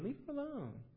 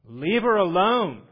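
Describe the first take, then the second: First: It is said lightly and casually. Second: It is said firmly and with force. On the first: It is a mild, offhand remark. The speaker calls it wrong. "don't think he just said that with kind of like, you know, hey" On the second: It is a command backed by authority. The speaker calls it right. "With the full force of his authority"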